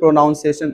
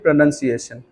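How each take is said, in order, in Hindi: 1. दूसरा अक्षर 'noun' जैसा सुनाई देता है। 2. दूसरा अक्षर 'nun' जैसा सुनाई देता है। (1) "आप बोलते हो pronunciation, नहीं बोलना चाहिए" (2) "उसे बोलना चाहिए pronunciation"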